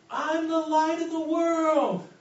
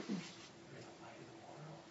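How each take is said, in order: First: High, loud, slow ecstatic shout; shouting it much higher and louder into the night; joyful yell. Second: Breathless, hushed wonder; soft unvoiced whisper of discovery; awed whisper. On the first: Retold or imitated. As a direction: cry it out to the whole street. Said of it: "he keeps yelling". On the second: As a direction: whisper it as if it just dawned on you. Thomas kinda lights up.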